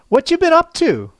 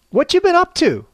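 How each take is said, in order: Both takes have the same delivery.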